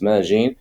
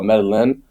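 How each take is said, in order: First: The double L is not pronounced as an L. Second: The double L is pronounced as an L sound. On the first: The speaker calls it right. "It's called it's Medellin" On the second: The speaker calls it wrong. "some people call it Medellin. ... It's two L's, but they don't know how to pronounce it"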